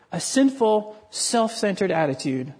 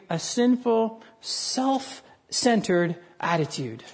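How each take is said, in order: First: Said in the usual way. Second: Slow emphasis. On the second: Shown as a demonstration.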